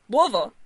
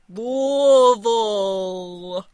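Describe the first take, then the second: First: The word is said quickly. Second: The word is said slowly.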